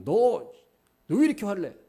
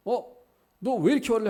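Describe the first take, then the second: First: Pitched up, loud scolding on 왜; a hammed-up rebuke stressing 왜; mock angry scolding. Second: Very high, loud scolding with 이렇게 stressed; hammed-up rebuke leaning on 이렇게; mock angry scolding. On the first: Imagined God snapping at Jonah, loud and high, stressing 왜. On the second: Imagined God scolding Jonah again, high and loud on 이렇게. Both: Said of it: "감정을 억누르시는 게 아니라".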